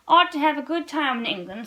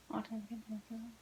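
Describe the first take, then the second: First: Said in the usual way. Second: A soft whispered repeat, much softer. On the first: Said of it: "added meditatively". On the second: Real, not acted. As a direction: breathe the line back to yourself. Reader repeats line under breath.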